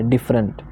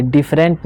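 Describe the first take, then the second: First: डिफरेंट as "DIFF-runt"; डिफरेंट with a quick neutral vowel before the final nt; schwa ending. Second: डिफरेंट with a full "rent" ending; डिफरेंट with a clear "e" in the last syllable; wrong full vowel. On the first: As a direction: weaken the last vowel of डिफरेंट to "uh". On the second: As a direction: mispronounce डिफरेंट as "diff-RENT". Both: Shown as a demonstration. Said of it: "ये डिफरेंट नहीं है".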